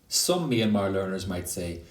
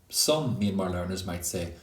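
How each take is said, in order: No difference in how they are said.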